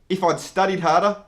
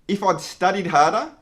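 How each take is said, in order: No difference in how they are said.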